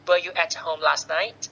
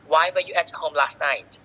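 First: Teacher's demo, voice rising at "night"; rising intonation. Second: "why were you at home last night" falling on "night"; falling intonation. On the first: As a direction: let "night" climb as a yes-no question. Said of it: "งท้ายประโยคด้วยเสียงสูง". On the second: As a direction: drop the pitch at "night". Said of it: "ก็ต้องลงท้ายเสียงต่ำ". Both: Shown as a demonstration.

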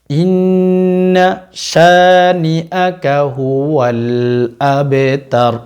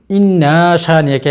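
First: ইন্না শানিআকা হুয়াল আবতার recited slowly without the extra pull; correct reading. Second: ইন্না শানিআকা overly stretched; wrong drawl. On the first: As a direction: chant it properly, no added stretch. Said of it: "এভাবে টান দেওয়া যাবে না". (সঠিকভাবে ইন্না শানিআকা হুয়াল আবতার, অতিরিক্ত টান ছাড়া) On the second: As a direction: show the mistaken long pull on ইন্না শানিআকা. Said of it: "এভাবে টান দিয়ে থাকে অনেকে". (ভুলভাবে টেনে ইন্না শানিআকা) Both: Shown as a demonstration.

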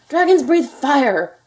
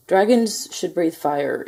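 First: High, loud, drawn-out outburst; an outraged father hollering; father's shout. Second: Slow, measured insistence; mildly insistent father. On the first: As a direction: shout it slowly, driving each word home. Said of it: "shouted his father". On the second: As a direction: press the point slowly, without shouting. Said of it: "insisted Crispin's father". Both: A narrator's reading.

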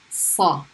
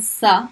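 First: Sa, heavy and slow; emphatic heavy sa. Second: Sa, light and thin; light unemphatic sa. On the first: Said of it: "heavy S". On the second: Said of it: "a light S sound". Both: Shown as a demonstration.

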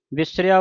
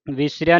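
First: ਵਿਸਰਿਆ with a short "i" after v; short first vowel. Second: ਵਿਸਰਿਆ with a long "ee" in the first syllable; wrong vowel length. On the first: Teacher shows the correct reading, ਵਿਸਰਿਆ begun with short "vis". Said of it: "ਵਾਵੇ ਨੂੰ ਸਿਆਰੀ". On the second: Teacher shows what to avoid, ਵਿਸਰਿਆ begun with long "vee". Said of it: "Bihari ਦੀ ਆਵਾਜ਼ ਉਚਾਰਨ ਨਹੀਂ ਕਰਨੀ". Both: Shown as a demonstration.

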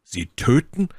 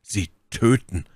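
First: Raised, startled question; horrified exclamation. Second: Slow, falling echo; stunned repetition. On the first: Felton grasps why she wants the knife, horrified. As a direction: blurt it with a touch of horror, pitch lifting at the end. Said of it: "rief Felton voll Schrecken". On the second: Felton repeats the realisation to Milady, slowly and stunned. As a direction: repeat it slowly as the horror sinks in. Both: A narrator's reading.

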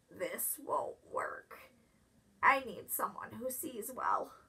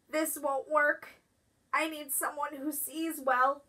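First: Softer, unvoiced hoarse groundhog; sick whisper. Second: Said in the usual way. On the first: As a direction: whisper it, too sick to speak up.

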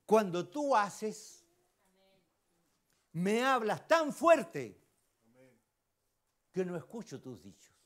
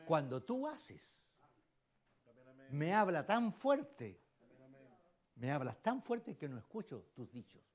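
First: Each word drawn out, higher and louder on "me hablas tan fuerte"; slow emphatic quote. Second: Softer, unhurried second reading of "me hablas tan fuerte"; quieter slow repeat. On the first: Preacher to congregation, reading a favourite saying slowly and emphatically. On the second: Preacher repeating the saying softly for the congregation. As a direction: let the saying sink in, more quietly. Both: Shown as a demonstration. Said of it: "Mire lo que dice".

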